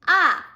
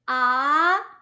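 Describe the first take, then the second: First: The pitch falls sharply from high to low. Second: The pitch rises from middle to high. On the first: "from the top down, falling tone" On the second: "it's rising tone"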